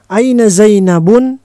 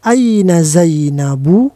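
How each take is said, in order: First: The name ends with a final n sound. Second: The name ends on a plain vowel sound. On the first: The speaker calls it wrong. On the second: The speaker calls it right. "tetapi aina Zainabu karena nama perempuan"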